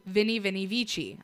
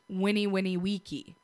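First: The words start with a V sound. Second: The words start with a W sound. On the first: The speaker calls it wrong. "we say Vinny, Vinny, Vici" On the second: The speaker calls it right. "Actually pronounced Winnie Winnie Wiki. V's were pronounced like W's"

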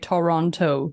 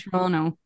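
First: The second t is clearly pronounced. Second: The second t is dropped. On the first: The speaker is a visitor. The speaker calls it wrong. "we know that you're a tourist because you say Toronto" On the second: The speaker is from there. The speaker calls it right. "locals say"

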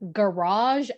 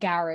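First: The word is pronounced in a French-like way. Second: The word is pronounced in a non-French way. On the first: The speaker calls it right. "if it is French, it's garage" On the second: The speaker calls it wrong. "and not garage"

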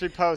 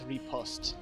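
First: The word is said with a plain English pronunciation. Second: The word is said with a fancy French pronunciation. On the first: "It's repost" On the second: "if you want to be fancy and French like, then it's repost"

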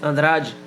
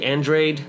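First: The name has its native, original pronunciation. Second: The name has an American English pronunciation.

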